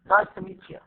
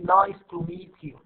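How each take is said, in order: First: The words are reduced and run together. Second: Every word is said fully and separately. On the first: The speaker calls it right. "so you see how I like reduce that form?" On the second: The speaker calls it wrong. "We don't say"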